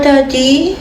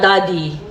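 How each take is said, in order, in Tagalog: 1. Ang tunog ay malungkot at puno ng lungkot. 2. Ang tunog ay nadismaya at nabigo. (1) "daddy na sad"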